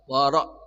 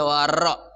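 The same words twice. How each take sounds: First: The r is trilled with one or two vibrations. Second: The r is trilled with many vibrations. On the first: The speaker calls it right. "bergetarnya antara satu sampai dua" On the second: The speaker calls it wrong. "nggak boleh wara"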